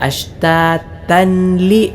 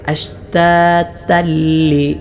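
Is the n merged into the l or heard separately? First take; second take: separate; merged. First: The n is heard separately before the l. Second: The n merges fully into a doubled l. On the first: The speaker calls it wrong. "ചിലരിവിടെ അശ്താതൻലി എന്ന് ഓതാറുണ്ട്... അത് പിഴവാണ്" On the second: The speaker calls it right. "അശ്താതല്ലി ഇങ്ങനെയാണ് ഓതേണ്ടത്"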